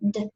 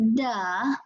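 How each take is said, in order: First: The d sound is clipped with no vowel. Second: The d sound ends with an added uh vowel. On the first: The speaker calls it right. "we cut off the uh" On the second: The speaker calls it wrong. "We don't say duh"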